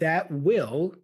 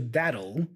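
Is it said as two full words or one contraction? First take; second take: two words; contraction. First: It is said as two full, separate words. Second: It is said as one short contracted word.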